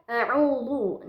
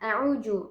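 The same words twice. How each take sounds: First: The middle consonant is thick and heavy. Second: The middle consonant sounds like j. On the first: "dia menebalkannya menjadi huruf la" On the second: "ada yang mengubahnya ke huruf jim"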